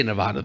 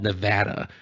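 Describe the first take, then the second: First: "Nevada" with a broad ah, nuh-VAH-duh; nuh-VAH-duh pronunciation. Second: "Nevada" with a flat a, nuh-VAD-uh; local pronunciation. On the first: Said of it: "I say Nevada, though". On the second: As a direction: say "Nevada" so VAD rhymes with mad. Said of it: "if you're from there, it's called". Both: Shown as a demonstration.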